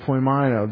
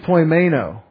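First: The middle vowel sounds like 'eye'. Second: The middle vowel sounds like 'ay'. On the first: The speaker calls it right. "in Greek it doesn't. Probably says I" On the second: The speaker calls it wrong. "because AI in English says A"

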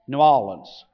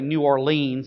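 First: The name is said the way locals say it. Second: The name is said the way outsiders say it. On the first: The speaker is from the city. The speaker calls it right. "It's more like New Orleans or something like that" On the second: The speaker is from somewhere else. The speaker calls it wrong. "you know they're from who knows where"

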